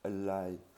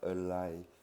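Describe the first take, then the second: No difference in how they are said.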